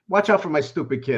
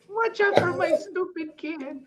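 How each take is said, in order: First: It is said in his normal voice. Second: It imitates his tiny Brazilian mother's voice.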